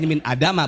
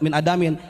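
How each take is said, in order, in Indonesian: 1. Kata itu berakhir dengan vokal -a biasa. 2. Kata itu berakhir dengan -in, dengan huruf n di akhir. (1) "min adama bacanya karena isim ghair mun sorib" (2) "kita baca min adamin karena ini syair"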